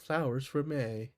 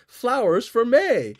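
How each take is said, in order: First: It is said in a somber, subdued tone. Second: It is said in a bright, cheerful tone.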